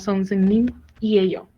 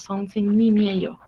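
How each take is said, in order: First: The final n stays apart from the vowel. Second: The final n runs into the following vowel. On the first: The speaker calls it wrong. "No es como" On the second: The speaker calls it right. "por eso todo suena como"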